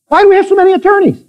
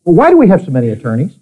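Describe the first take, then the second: First: Much higher and fast, pressing the question; emphatic repeat. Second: Said in the usual way. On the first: Acted. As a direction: fire it at the congregation. Same question repeated, preaching harder.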